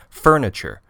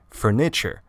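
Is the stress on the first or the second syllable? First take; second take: first; second. First: The stress is on the first syllable. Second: The stress is on the second syllable. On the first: The speaker calls it right. "we usually say furniture" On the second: The speaker calls it wrong. "We don't say furniture. This just sounds very unnatural and clumsy"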